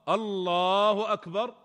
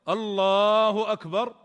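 The two takes are said the same way.

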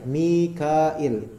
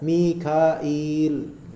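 First: The vowel before the final l is short. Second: The vowel before the final l is long. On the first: "il tanpa panjang" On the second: "setelah hamzah itu ada ya"

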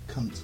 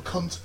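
First: The word is said in a sultry, sexy way. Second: The word is said in a plain, ordinary way. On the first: This is the speaker's own way of saying it. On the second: This is how most people say it. "Most people go"

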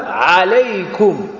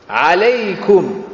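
The two takes are said the same way.

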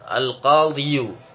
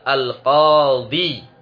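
First: The word ends with a 'yu' sound. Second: The word ends with a short 'i' sound. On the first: This is the full underlying form with its case ending. "Seharusnya dia itu dibaca al-qadiyu" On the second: The final vowel is hidden to make it easier to say. "mereka menyembunyikan harokat akhir dan diringkas dengan bacaan al-qadi"

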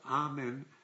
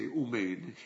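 First: The word begins with an open 'ah' sound. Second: The word begins with a rounded 'oo' sound. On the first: "it's not Amen" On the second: "I say Umein"

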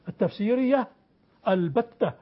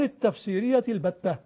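First: A full break and glottal stop precede 'albatta'. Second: The words run together without a glottal stop. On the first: "يعني بقطع كامل" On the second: "ولا تهمز إذا وصلت"

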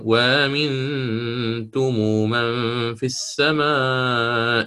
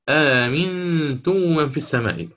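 First: The first word starts with a w sound. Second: The first word starts with a glottal stop. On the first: The word is joined to the previous verse. "وصلا، دائما انتبهوا، وصلا" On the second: The reading starts fresh at this word. "وبعدين سيأتي ابتداء فيقرأ مثل الإمام البزي"

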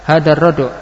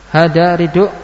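First: The first vowel of the noun is not i. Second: The first vowel of the noun is i.

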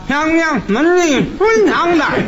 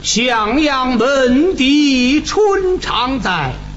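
First: It is recited with no nasal resonance at all. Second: It is drawn out with strong nasal resonance. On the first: The speaker calls it wrong. "有的人呢，他这个鼻腔共鸣就没有" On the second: The speaker calls it right. "你看这个鼻腔共鸣就用了"

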